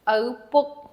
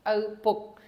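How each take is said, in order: First: O rising and louder than book; stress on O. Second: Said in the usual way. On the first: Shown as a demonstration. Teacher showing students where the stress falls. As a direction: lift and lean on the O in O, book. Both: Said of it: "is the biggest syllable of the whole phrase".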